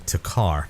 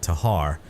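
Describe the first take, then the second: First: The K sound in the middle is pronounced. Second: The K sound in the middle is silent. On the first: This is how the name looks when read. "I will be calling it the Takar because that's how it looks to me" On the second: This is how others say the name. "leaving the K silent"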